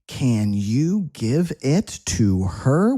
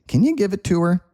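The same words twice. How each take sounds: First: Each word is said fully and separately. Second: The words are reduced and run together.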